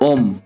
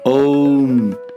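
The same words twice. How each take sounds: First: It is a plain short O then M. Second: It glides through A, U and M. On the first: The speaker calls it wrong. "and not O M" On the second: The speaker calls it right. "that is A U M"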